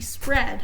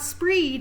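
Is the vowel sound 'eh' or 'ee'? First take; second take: eh; ee. First: The vowel is a short 'eh' sound. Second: The vowel is a long 'ee' sound. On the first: The speaker calls it right. "it'd be spread" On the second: The speaker calls it wrong. "So it's not spreed"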